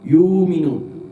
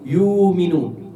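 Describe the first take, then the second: Both takes have the same delivery.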